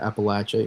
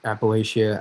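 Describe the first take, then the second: First: "Appalachia" with a short "latch" and "a" ending; southern local "Appalachia"; Appa-LATCH-a. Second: "Appalachia" with a long "lay" and "shia" ending; northern "Appalachia"; Appa-LAY-shia. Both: Shown as a demonstration. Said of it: "there's different ways to say it".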